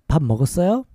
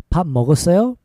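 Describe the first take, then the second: Both takes have the same delivery.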